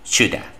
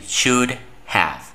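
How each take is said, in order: First: Have is reduced and joined into one word. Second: Have is pronounced fully as a separate word.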